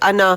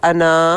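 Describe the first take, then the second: First: The final vowel is short. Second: The final vowel is long. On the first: The word is read while continuing the recitation. "इसको सिंगल ज़बर पढ़ा जाता है" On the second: The reciter stops on this word. "वक्फ की सूरत में उसको अना हरूफ मद्दा को अदा करेंगे"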